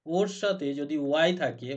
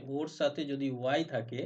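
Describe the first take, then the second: First: সাথে punched, louder with a fall; stress on সাথে. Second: Said in the usual way. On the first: Shown as a demonstration. Teacher stressing সাথে for the class. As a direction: hit সাথে hard and let it drop.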